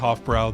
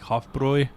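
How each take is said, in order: First: The last syllable does not rhyme with 'boy'. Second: The last syllable rhymes with 'boy'. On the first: The speaker calls it wrong. "We say Hofbrau, that's how it's spelled in English" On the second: The speaker calls it right. "the correct pronunciation is like boy"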